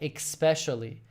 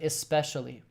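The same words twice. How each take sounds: First: The word begins with an 'ex' sound. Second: The word begins with an 'es' sound. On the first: "I say E X P E, like especially" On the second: "instead of especially"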